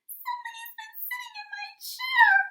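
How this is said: It is said in a high, squeaky voice.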